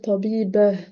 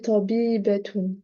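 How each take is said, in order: First: The ending is pronounced with an h sound. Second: The ending is pronounced with a t sound. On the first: "finalement, on va dire tabibah" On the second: "on dit tabibatun"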